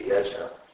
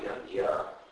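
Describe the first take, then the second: First: The middle cluster is sounded as j followed by n. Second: The middle cluster is sounded as g followed by y. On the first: "phonetically it'd just be Yajna" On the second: "the modern Indic tendency to pronounce it as G-Y"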